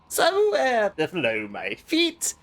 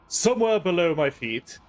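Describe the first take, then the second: First: It is read in a playful put-on voice. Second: It is read in a plain, normal voice.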